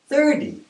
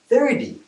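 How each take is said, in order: First: The middle consonant is a soft D-like sound. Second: The middle consonant is a soft D-like sound.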